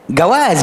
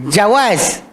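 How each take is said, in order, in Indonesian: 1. Kata ini diawali bunyi g keras. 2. Kata ini diawali bunyi j.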